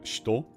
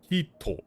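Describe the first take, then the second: First: The first vowel is dropped, giving a short shto. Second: The first vowel is pronounced fully, as hi-to. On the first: "The same thing happens with uh" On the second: "Like technically"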